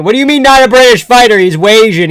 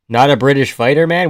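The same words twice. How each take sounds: First: High, loud incredulous retort; raised-voice protest, much higher and louder; indignant disbelief. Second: Said in the usual way. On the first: Real, not acted. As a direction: throw it back in outraged disbelief. Throws the objection back indignantly.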